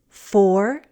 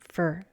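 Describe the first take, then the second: First: The vowel is a full sound before r. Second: The vowel is reduced to er.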